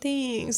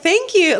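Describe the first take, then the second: First: It sounds doubtful, as if not believing it. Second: It sounds joyful and warmly accepting.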